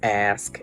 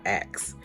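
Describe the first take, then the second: First: The word ends with an s then k sound. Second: The word ends with a k then s sound. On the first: "I pronounced ask as ask" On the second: "and not ax"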